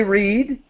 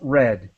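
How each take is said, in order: First: The word does not sound like the color red. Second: The word sounds like the color red. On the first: The action happens now or habitually. "present tense" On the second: The action has been completed. "the past participle"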